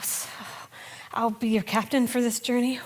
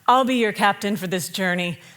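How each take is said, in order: First: It sounds hesitant and unsure. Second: It sounds calm and confident.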